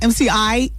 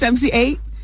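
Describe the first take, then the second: First: The last part sounds like the word 'eye'. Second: The last part sounds like the word 'eight'. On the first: The speaker calls it wrong. "his name's not M C I" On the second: The speaker calls it right. "It's M C eight"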